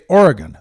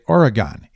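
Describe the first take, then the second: First: One syllable is stressed more than the others. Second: Every syllable gets equal stress. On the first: "they don't say Oregon" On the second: "Each syllable gets equal emphasis"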